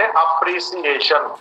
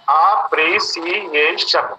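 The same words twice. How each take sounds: First: Said in the usual way. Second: अप्रिसिएशन very slowly split into five syllables; अप्रिसिएशन in five slow, separate beats. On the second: Shown as a demonstration. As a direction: stretch each syllable of अप्रिसिएशन apart. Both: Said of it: "five words आया".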